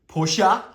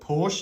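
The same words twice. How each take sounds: First: It is said the non-Australian way. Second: It is said the way Australians say it. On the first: This is the form the speaker's country does not use. "not Porsche" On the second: This is the form the speaker's country prefers. "as Aussies, we prefer to call it call it Porsche"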